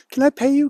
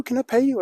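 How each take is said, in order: First: Put-on much higher, louder eager old lady. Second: Much higher repeated plea; eager old lady. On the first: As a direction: rush it out like a thankful grandma. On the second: Retold or imitated. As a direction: beg to pay, pitched high like a grandma. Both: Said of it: "she goes".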